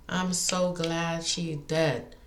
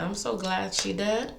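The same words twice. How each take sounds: First: Drawn out, each word weighed; slow it right down to land it; slow, deliberate repeat; slow emphatic repeat. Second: Said in the usual way. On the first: Real, not acted. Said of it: "repeats line slowly". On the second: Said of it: "repeats line".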